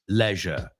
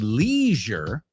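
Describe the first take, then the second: First: It is said with a British pronunciation. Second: It is said with an American pronunciation. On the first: "British people say leisure" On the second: "Americans say leisure"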